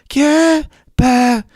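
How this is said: It is said in a light falsetto.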